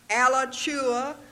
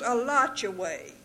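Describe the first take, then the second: First: The name ends with an 'uh' sound. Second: The name ends with an 'ay' sound. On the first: This is how outsiders say it. The speaker calls it wrong. "Yankees and strangers call it Alachua" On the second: This is how long-time locals say it. The speaker calls it right. "it is Alachuay"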